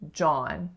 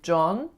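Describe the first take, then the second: First: The vowel is an open ah sound. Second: The vowel is a rounded o sound. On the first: The speaker calls it right. "it's really John" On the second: The speaker calls it wrong. "being more of a o"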